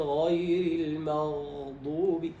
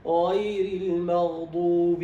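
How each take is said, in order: First: "المغضوب" with the غ held too long; lingering ghayn, wrong. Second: "المغضوب" louder, the sound flowing through غ without lingering; flowing ghayn, correct. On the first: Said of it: "لا يقول". (إطالة الغين في "المغضوب") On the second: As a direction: let the غ of "المغضوب" flow on without a hold. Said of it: "هنا الصوت يمشي". (جريان صوت الغين في "المغضوب" دون مكث) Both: Shown as a demonstration.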